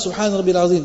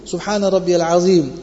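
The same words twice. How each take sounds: First: The phrase is said quickly and hurriedly. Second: The phrase is said slowly and calmly. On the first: The prayer is rushed without care. The speaker calls it wrong. "Sometimes in a rush" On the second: The prayer is said with proper care. The speaker calls it right. "take our time, one breath, one tasbih"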